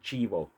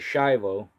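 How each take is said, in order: First: The name is said the Spanish way. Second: The name is said the American English way. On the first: The speaker calls it right. "but it's actually Chivo" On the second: The speaker calls it wrong. "the American way of pronouncing it"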